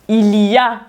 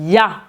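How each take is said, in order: First: The word 'il' is fully pronounced. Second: The word 'il' is dropped entirely.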